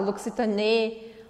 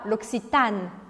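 First: The stress falls on the last syllable. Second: The stress falls on the middle syllable. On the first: The speaker calls it wrong. "eu não posso falar L'Occitane" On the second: The speaker calls it right. "A sílaba forte aqui é o A"

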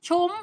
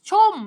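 First: The word is said with a high tone. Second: The word is said with a falling tone. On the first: "รูปโทเสียงตรี" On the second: "รูปเอกเสียงโท"

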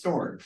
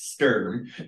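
First: The name is said with an 'or' vowel. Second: The name is said with an 'er' vowel. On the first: This is how local people say the name. "if you want to say Jackson County wise" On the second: This is the formal, professional pronunciation. "if you want to be professional and say it correctly"

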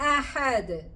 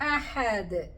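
No difference in how they are said.

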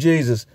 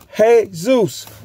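First: The name begins with a j sound. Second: The name begins with an h sound. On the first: The speaker calls it wrong. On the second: The speaker calls it right.

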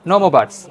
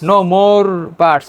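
First: The r in more is dropped. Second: The r in more is pronounced. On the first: The speaker calls it right. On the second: The speaker calls it wrong.

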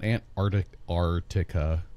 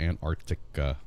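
First: The k sound in the middle is dropped. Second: The k sound in the middle is pronounced. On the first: The speaker calls it wrong. "it's not" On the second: The speaker calls it right. "We got to pronounce that correctly"

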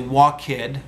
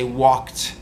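First: The ending is an extra syllable, like id. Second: The ending is a plain T sound. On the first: The speaker calls it wrong. "So you don't say walk-id" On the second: The speaker calls it right. "you say walked"

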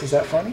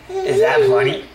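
First: It is said in a normal voice. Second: It is said in a put-on voice.

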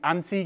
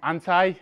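First: It is said the way people say it back home. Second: It is said the way people in the States say it. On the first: The speaker calls it right. "Back home we say anti" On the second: The speaker calls it wrong. "not anti"

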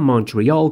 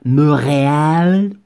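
First: It is said with an English pronunciation. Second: It is said with a French pronunciation.

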